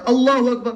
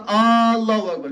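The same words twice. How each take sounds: First: Said in the usual way. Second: First vowel of اللہ drawn out long, like a question word; misread takbir. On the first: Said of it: "تہٕ بہٕ کیٛاہ پرٕ". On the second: Shown as a demonstration. Teacher showing a wrong recitation, اللہ with a long first vowel. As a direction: stretch the opening "aa" of اللہ before اکبر. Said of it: "امہِ معنی کیٛاہ گوٚو اللہ اکبر".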